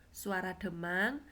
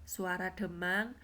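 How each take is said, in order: No difference in how they are said.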